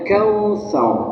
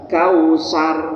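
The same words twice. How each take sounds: First: The middle consonant is a th sound between teeth. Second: The middle consonant is a plain s sound. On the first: The speaker calls it right. "harusnya kausar ... ujung lidah nempel pada ujung dua gigi seri yang atas" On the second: The speaker calls it wrong. "Kalau suara sar"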